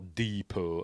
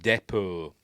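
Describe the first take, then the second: First: It is said with an American pronunciation. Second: It is said with a British pronunciation.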